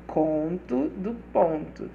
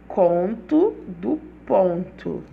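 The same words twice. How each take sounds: First: Said in the usual way. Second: Conto do Ponto spoken slowly and firmly; slow emphatic title. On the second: Shown as a demonstration. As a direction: Conto do Ponto stretched out, stressed. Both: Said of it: "bota no título do e-mail".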